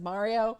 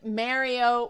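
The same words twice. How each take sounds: First: Mario is said without a Canadian accent. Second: Mario is said with a Canadian accent. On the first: The speaker calls it right. "I recovered and said Mario in the show" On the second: The speaker calls it wrong. "Canadian style"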